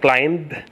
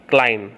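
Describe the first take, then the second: First: The final B is pronounced aloud. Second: The final B is left silent. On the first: The speaker calls it wrong. "it's not" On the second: The speaker calls it right. "the general rule is to drop the B or silent B"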